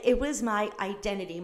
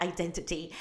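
First: Said in the usual way. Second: "Identity" said lower and softer, every T crisp; affected pronunciation. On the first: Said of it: "I'm not trying to be Moira Rose". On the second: Shown as a demonstration. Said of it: "why did I say it like that?".

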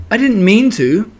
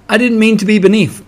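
First: High-pitched, mildly sorry apology; sorrowful. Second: High, louder, mildly plaintive; sad. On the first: Pooh apologising for falling on Piglet, sorrowful. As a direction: apologise in a raised, regretful pitch. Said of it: "said Pooh sorrowfully". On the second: Piglet to Pooh who fell on him, sad. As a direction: protest plaintively in a little high voice. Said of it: "said Pig sadly". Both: A narrator's reading.

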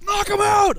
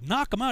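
First: High, loud sergeant yell; insistent high shout; shouted order. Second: Higher, questioning recruit; mildly acted disbelief; puzzled echo. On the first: Retold or imitated. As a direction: bellow the command at a recruit. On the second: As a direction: repeat the order back, unsure.

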